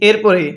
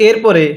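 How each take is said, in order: No difference in how they are said.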